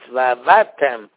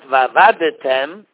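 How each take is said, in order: First: No vowel is sounded after the d. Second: An extra vowel is sounded after the d. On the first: The speaker calls it right. "the shvo is a shvo noch" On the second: The speaker calls it wrong. "So it's not vavadetem"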